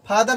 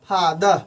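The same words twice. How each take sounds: First: The final r sound is pronounced. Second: The final r sound is silent. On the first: The speaker calls it wrong. "फादर नहीं पढ़ेंगे" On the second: The speaker calls it right. "इसका main रूप से ऐसे पढ़ेंगे फादर"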